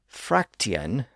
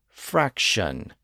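First: The ending has a t sound and two syllables. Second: The ending is one syllable with an sh sound. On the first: This is the older pronunciation. "that ending was originally pronounced tien" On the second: This is the modern pronunciation. "that tien ending started to slur into shun"

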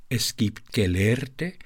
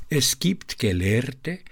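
No difference in how they are said.

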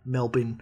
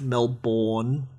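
First: The second syllable is reduced to a short 'bin'. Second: The second syllable has a full 'born' vowel. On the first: This is how locals say it. The speaker calls it right. "We pronounce it Melbourne. M-E-L-B-I-N" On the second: This is how people from overseas say it. The speaker calls it wrong. "It's not pronounced Melbourne, all those people from overseas"

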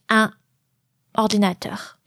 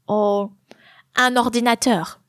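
First: The words are separated with a break. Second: The n links smoothly into ordinateur. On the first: The speaker calls it wrong. "You don't say" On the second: The speaker calls it right. "That's why you say"

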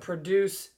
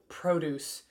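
First: The stress is on the second syllable. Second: The stress is on the first syllable. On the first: It is used as a verb. "Produce is a verb" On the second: It is used as a noun. "Produce is a noun"

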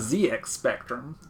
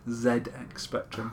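First: The letter Z is said as zee. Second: The letter Z is said as zed. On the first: The speaker calls it wrong. "Not a" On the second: The speaker calls it right. "he pronounced it properly"

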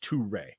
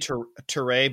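First: The stress falls on the first syllable. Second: The stress falls on the second syllable. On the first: The speaker calls it right. "but I think it's Turay. Got to put the emphasis on the two" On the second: The speaker calls it wrong. "I always say Turay"

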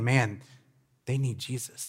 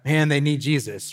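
First: It is said in a sincere, caring tone. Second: It is said in a snide, passive-aggressive tone. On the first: The person is genuinely cared for and prayed for. The speaker calls it right. "That's not what this is. This is saying" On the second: The person is being judged and looked down on. The speaker calls it wrong. "this could be used as in like a passive-aggressive way"

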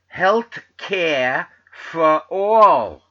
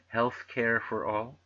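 First: It is said in a New York accent. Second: It is said in a neutral accent. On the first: "As Colonel Bernie Sanders says" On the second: "should I translate the New Yorkese?"

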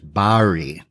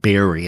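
First: The first vowel sounds like the one in 'carry'. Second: The first vowel sounds like the one in 'berry'. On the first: This is the proper way to say the name. The speaker calls it right. "your name is Barry" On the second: The name sounds like the fruit. The speaker calls it wrong. "not Barry. It's not spelled with an E. You're not a fruit"

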